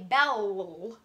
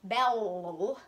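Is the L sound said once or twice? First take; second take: twice; twice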